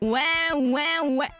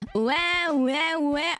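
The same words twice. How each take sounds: First: The voice has a hard, strong auto-tune effect. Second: The voice has a medium auto-tune effect.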